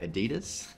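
It is said the American way. "for those of you in America, I'll say Adidas"

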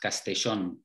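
The double L has the Argentine Spanish sound. "coming from Argentina, the double L would be pronounced Castellón"

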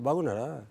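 The vowels are short and central. The speaker calls it right. "In Telugu, we say bagunada"

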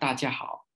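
It is said with a Vietnamese accent. "bình thường người Việt Nam mình sẽ nói"

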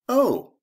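The 'oh' sounds interested. The speaker finds the news interesting. "that's interesting"

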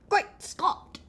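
It is said in a put-on accent.

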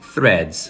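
The word is said with English pronunciation. "é a pronúncia correta"

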